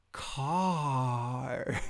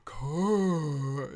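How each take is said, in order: First: "car" stretched out long and slow; slow, exaggerated model of "car"; teaching a word. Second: Loud, cooing toddler attempt at "car"; "car" drawn out in baby talk; little baby voice. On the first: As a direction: draw out "car" for a toddler to copy. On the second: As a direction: imitate a baby copying "car". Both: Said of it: "you'll say it in your little baby voice".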